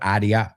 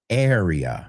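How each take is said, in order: First: It is said with a Spanish-sounding pronunciation. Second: It is said with an English pronunciation. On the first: The speaker calls it wrong. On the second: The speaker calls it right.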